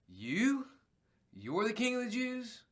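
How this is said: It is asked with shock, stressing you.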